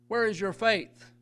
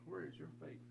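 First: It is asked directly, expecting an answer. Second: It is asked casually, almost to himself.

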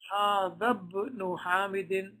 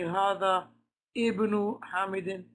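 First: Hadha runs straight into the b of ibnu. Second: The vowel before ibnu is pronounced separately. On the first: The speaker calls it right. "rather you will say" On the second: The speaker calls it wrong. "you will not say"

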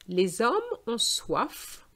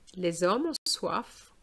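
First: The sentence is read at a slower pace. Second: The sentence is read at a faster pace.

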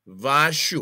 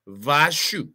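Both takes have the same delivery.

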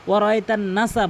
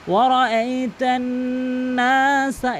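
First: The 'n' sound is short without nasal hold. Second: The 'n' sound is nasalized and held long. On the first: The speaker calls it wrong. "অধিকাংশ লোক ভুল বলে" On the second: The speaker calls it right. "এই যে নুনকে টানলাম"

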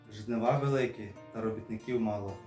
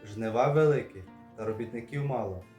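No difference in how they are said.

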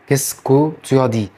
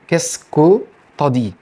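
First: Every syllable is said, including the full 'tu'. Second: The 'tu as' is merged into a short 'ta'. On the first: "معظم الفرنسيين اصلا مش بينطقها كده" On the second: "تيو انت هتحولها الى طا"

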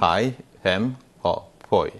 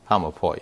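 First: It is said slowly, word by word. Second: It is said fast, words run together.

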